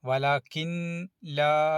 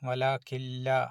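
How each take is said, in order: First: The n sound is pronounced before la. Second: The n sound merges into a doubled l. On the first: The speaker calls it wrong. "എന്ന് ഓതാൻ പാടില്ല" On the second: The speaker calls it right. "കാഫ് കഴിഞ്ഞാൽ നേരെ ലാമിലേക്കാണ് പോകേണ്ടത്"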